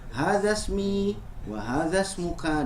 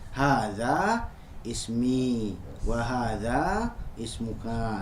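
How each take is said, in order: First: The phrase is run together without breaks. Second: The phrase is broken up with short pauses. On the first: "kalau pengucapannya disegaliguskan" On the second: "kalau misalkan pengucapannya mau dijeda"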